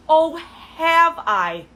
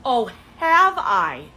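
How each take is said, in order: First: "Oh, have I?" pitched higher, loud and very slow; hammed-up disbelief, stretch every word; exaggerated sarcasm. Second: Loud sarcastic "Oh, have I?" with slow, drawn vowels. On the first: Scoffing at the date's compliment, higher and slower. Repeats the mockery, bigger. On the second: Mocking the date's compliment with loud sarcasm. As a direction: throw his line back at him, slower. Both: Real, not acted.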